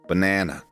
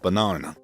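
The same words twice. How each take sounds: First: The middle vowel is a short front 'a'. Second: The middle vowel is a long open 'ah'. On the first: "someone from Chicago and Vancouver is almost definitely going to say banana" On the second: "Somebody from Manchester, Sydney, or Auckland will most likely pronounce it banana, as in arm"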